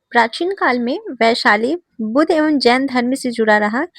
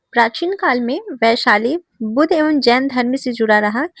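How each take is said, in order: Both takes have the same delivery.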